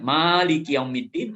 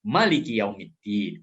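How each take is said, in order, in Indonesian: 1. Vokal pertama dalam Maliki dibaca panjang. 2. Vokal pertama dalam Maliki dibaca pendek. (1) "Boleh dibaca dengan panjang" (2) "maknya boleh pendek"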